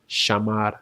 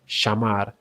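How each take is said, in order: The two takes are said the same way.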